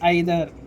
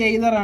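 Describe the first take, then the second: First: The first vowel sounds like 'eye'. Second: The first vowel sounds like 'ay'. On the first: The speaker calls it right. "ఈదర్ లేకపోతే ఐదర్ అనాలి" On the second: The speaker calls it wrong. "ఇది కూడా pronunciation wrong"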